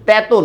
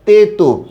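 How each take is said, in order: First: The first vowel is an open e sound. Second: The first vowel is a closed e sound. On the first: The speaker calls it wrong. "তেতো না" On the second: The speaker calls it right. "তয়ের মধ্যে একারই থাকবে"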